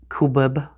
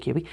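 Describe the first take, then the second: First: The word ends with a b sound. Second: The word ends with a vowel sound. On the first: Other people pronounce it this way. "Some people say kubib. I don't say that" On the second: This is how the speaker pronounces it. "I say Q B"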